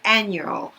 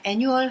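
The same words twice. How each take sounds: First: "annual" the English way, ann-yual; English-style pronunciation. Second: "annual" as Korean syllables, e-nyu-ol; Korean-sounding pronunciation. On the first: Teacher contrasting with Korean, "annual" pronounced English-style. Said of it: "영어식으로 읽어지는 거지". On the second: Teacher showing what to avoid, "annual" sounding Korean. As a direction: say "annual" like a Korean word, open first syllable. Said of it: "한국말처럼 느껴져요". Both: Shown as a demonstration.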